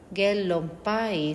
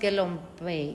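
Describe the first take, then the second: First: The second word sounds like 'pie'. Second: The second word sounds like 'pay'. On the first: The speaker calls it right. "es like Gelon Pai" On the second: The speaker calls it wrong. "no es Gelon Pei"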